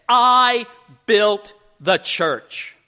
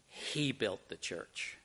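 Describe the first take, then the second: First: Loud, high and slow, stretching every word; proud claim. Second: Much softer, lower and slow; quiet correction. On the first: Builder tells the Mother Superior he built it, loud and proud. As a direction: boast it to the nun, drawn out. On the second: Mother Superior quietly gives the credit to God, slow and soft. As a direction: let it land gently and firmly. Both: Acted.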